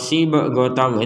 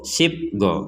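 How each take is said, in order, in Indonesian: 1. Bunyi b diikuti vokal penuh. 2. Bunyi b dihentikan cepat tanpa pantulan. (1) "itu kan terlalu" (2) "Kan nggak ada pantulannya itu"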